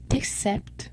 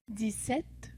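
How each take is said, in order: First: "dix-sept" with a hard ks in "dix"; demonstrated pronunciation. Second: Said in the usual way. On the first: Shown as a demonstration. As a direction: say "dix-sept" like "dicks-set". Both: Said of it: "This is pronounced".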